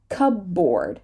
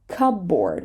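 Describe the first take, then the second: Both takes have the same delivery.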